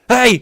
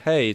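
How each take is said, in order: First: It is said loudly, like yelling. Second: It is said quietly and calmly.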